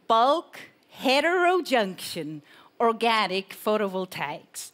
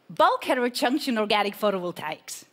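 First: It is said slowly. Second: It is said at normal speed.

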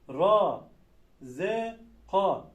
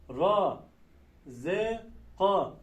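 The two takes are said the same way.

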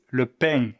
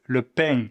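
First: It is said in a southern Marseille accent. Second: It is said in a southern Marseille accent.

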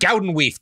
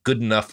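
First: The name is said with a South African pronunciation. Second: The name sounds like the English words good enough. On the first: "it's in South African. We pronounce it Goudenweef" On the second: "we're not doing that"

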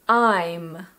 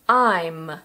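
First: It is said as one contracted syllable. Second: It is said as one contracted syllable.

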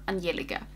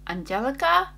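First: The name is said with Swedish pronunciation. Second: The name is said with English pronunciation.

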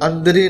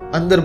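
First: The word ends with an added 'ee' vowel. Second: The word ends on a bare 'r' consonant. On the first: The speaker calls it wrong. "अंदरी नहीं बोलना है" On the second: The speaker calls it right. "इसको अंदर बोलना है"

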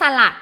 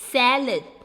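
First: The word is said the Thai way. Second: The word is said the English way. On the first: The speaker calls it wrong. "ไม่สลัดนะ" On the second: The speaker calls it right. "จะอ่านออกเสียงเป็น"

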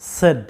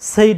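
First: The vowel is a plain short 'e'. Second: The vowel glides like 'ay'. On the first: The speaker calls it right. "এটা সঠিক উচ্চারণটা হচ্ছে সেড" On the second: The speaker calls it wrong. "বেশিরভাগ স্টুডেন্টরা এটাকে সেইড বলে উচ্চারণটা করে থাকে"

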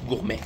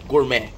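First: The word ends in a vowel, French style. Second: The word ends with a clear T sound. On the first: "I'm going to say it in French" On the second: "There's a T, not Y"

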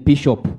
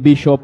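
First: It is said in a local regional accent. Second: It is said in a standard English accent. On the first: The speaker calls it wrong. "you hear me saying bishop, depending where you come from" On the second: The speaker calls it right. "Instead of saying bishop"

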